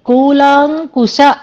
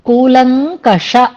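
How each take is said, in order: First: The second vowel is long and ends in 'kusha'. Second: The second vowel is short and ends in 'kasha'. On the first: The speaker calls it wrong. "అలాగే కూలాంకుశ అన్నారు" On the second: The speaker calls it right. "కూలంకష అనేది పదం అక్కడ"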